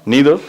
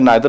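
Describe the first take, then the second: First: The first vowel sounds like 'ee'. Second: The first vowel sounds like 'eye'. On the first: "नीदर भी pronounce करते हैं" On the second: "नाइदर भी चलता"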